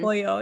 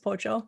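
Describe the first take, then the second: First: It is said with a standard Spanish accent. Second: It is said with an Argentinian Spanish accent.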